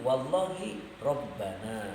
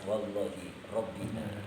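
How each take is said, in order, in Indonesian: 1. Dibaca dengan vokal 'a': Rabbana. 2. Dibaca dengan vokal 'i': Rabbina. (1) "dibaca nasab" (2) "dibaca ngejer"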